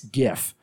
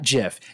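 First: It begins with a hard G sound. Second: It begins with a soft G sound. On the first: The speaker calls it right. "it's GIF. ... It stands for graphics interchange format" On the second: The speaker calls it wrong. "Not GIF. ... not giraffics interchange format"

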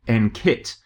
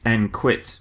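First: The Q is said with a plain 'k' sound. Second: The Q is said with a 'kw' sound. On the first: The name sounds empowering and sporty. The speaker calls it right. "pronounce the Q with a K sound, so that it comes out as NKIT" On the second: The name suggests giving up. The speaker calls it wrong. "I have to tell you off for calling it NQIT"

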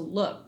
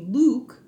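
First: The vowel is in the fallen, shifted form. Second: The vowel is in the older, unshifted form. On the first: This is how the word sounds now. "but then it fell to look" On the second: This is how the word used to sound. "It used to be Luke"

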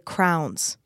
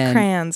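First: It is said with one syllable, like 'crowns'. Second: It is said with two syllables, like 'cray-ons'. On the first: "If you're from Texas, you'll say crowns" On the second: "It's crayons"

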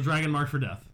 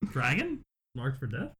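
First: It is read as a statement, falling. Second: It is read as a question, rising. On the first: The title is just a name. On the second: The title sounds like a question.

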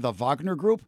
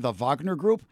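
First: Wagner is pronounced the German way. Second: The same.

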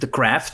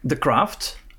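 First: It is said with an American English accent. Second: It is said without an American accent.

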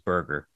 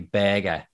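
First: It is said with a North American accent. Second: It is said with an English accent.

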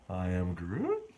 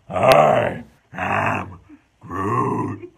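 First: The voice sounds confused and puzzled. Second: The voice sounds furious and intense. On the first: "say it bewildered" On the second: "Now say it with all the rage in your heart"

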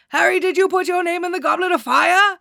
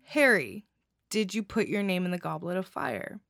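First: Dumbledore's line is yelled loudly. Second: Dumbledore's line is asked in a calm voice.

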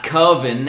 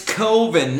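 First: The first vowel sounds like 'oven'. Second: The first vowel does not sound like 'oven'. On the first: The speaker calls it wrong. "not Coven. That sounds like oven" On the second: The speaker calls it right. "it's Coven"

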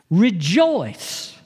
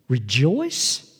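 First: It is said joyfully, with a smile. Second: It is said doubtfully, in disbelief.

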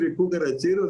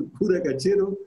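First: It is said as one smooth word. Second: It is split into two separate words. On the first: It names the song about a cockroach killer. The speaker calls it right. "En vez de decir" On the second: It sounds like a rude phrase about a priest. The speaker calls it wrong.

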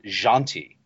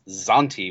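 First: The name begins with a soft zh sound. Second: The name begins with a hard z sound. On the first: The speaker calls it right. "she pronounced it Janti. so it's the same sort of ZH sound that is a sort of a soft" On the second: The speaker calls it wrong. "I was pronouncing the elf's name as Zanti with a hard Z"

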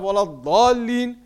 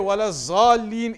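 First: The second word begins with a d-like sound. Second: The second word begins with a z sound. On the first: The speaker calls it right. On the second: The speaker calls it wrong.

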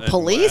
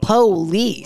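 First: The first vowel is dropped, like plice. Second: The first vowel is clearly pronounced, like po-lice. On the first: The speaker calls it wrong. "You just go police?" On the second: The speaker calls it right. "you don't give the O the respect that it deserves"

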